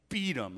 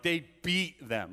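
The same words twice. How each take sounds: First: Said in the usual way. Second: Slow, weighty stress on "beat". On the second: Real, not acted. Preacher stressing how badly they were hurt, "beat" emphasized. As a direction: lean hard on "beat", drawing it out.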